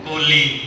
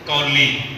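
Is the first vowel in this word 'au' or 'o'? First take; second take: o; au. First: The first vowel is the closer 'o' sound. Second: The first vowel is the open diphthong 'au'. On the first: "ਉਹ ਕਹਿੰਦੇ ਓੜਾ ਲਾ ਕੇ" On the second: "ਕਨੌੜਾ ਲਾ ਕੇ"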